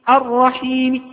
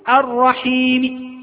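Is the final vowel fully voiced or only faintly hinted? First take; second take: faint; faint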